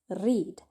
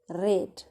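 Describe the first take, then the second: First: It does not sound like the color red. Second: It sounds like the color red. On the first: The action happens now. "our present tense is read" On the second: The action happened in the past. "your past tense is read, like the color red"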